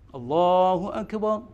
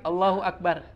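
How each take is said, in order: First: The final r is pronounced thick and heavy. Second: The final r is pronounced thin and light. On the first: The speaker calls it right. "dia bacanya harus tebal" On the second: The speaker calls it wrong. "Kalau tarkik"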